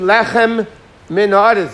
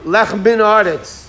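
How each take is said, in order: First: The two m sounds are pronounced separately. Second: The two m sounds run together into one. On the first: The speaker calls it right. "So you have to say" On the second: The speaker calls it wrong. "sometimes it's a run-on word"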